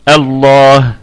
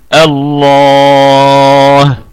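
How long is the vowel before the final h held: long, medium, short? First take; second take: short; long. First: The long vowel is held for two counts. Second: The long vowel is held for six counts. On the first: "هذا بالقصر" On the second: "اشباع ست حركات"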